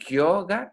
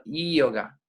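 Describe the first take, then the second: First: "yoga" with a hard j-like Spanish y. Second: "yoga" opening on ee, as ee-oga; soft vowel-like Y. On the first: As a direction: hit the first sound of "yoga" as a consonant, djo-ga. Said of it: "No yoga". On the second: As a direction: glide softly into "yoga" from an i vowel. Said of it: "sino yoga". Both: Shown as a demonstration.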